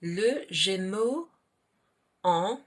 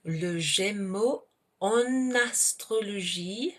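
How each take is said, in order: First: En left nasal, its N silent; en without liaison. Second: En astrologie linked as "on-nastrologie"; slow teacher's model, en carrying its N onto the vowel of astrologie; liaison on en. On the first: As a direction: say Le Gémeaux slowly, then en with no N sound. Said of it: "but here we have a word that begins with a vowel". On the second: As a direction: sound the N of en into astrologie. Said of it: "pronounce that N". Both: Shown as a demonstration.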